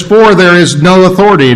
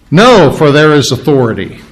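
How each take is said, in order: First: Said in the usual way. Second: "No" set first and leaned on, then the rest; preacher reorders the verse to land on "No"; stress on No. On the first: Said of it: "the first thing you see is no". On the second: Shown as a demonstration. Preacher showing the church the emphatic "No" at the start. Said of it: "that's very emphatic in the original".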